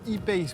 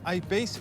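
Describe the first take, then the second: First: The name is pronounced the French way. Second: The name is pronounced the English way.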